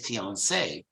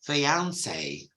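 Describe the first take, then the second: First: The word is said with an American pronunciation. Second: The word is said with a British pronunciation. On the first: "they say fiancé" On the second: "in British English, it's fiancé"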